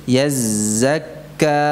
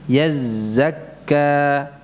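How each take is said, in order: No difference in how they are said.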